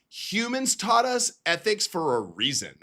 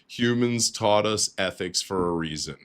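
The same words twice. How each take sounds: First: It is read in a put-on feminine voice. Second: It is read in his plain own voice.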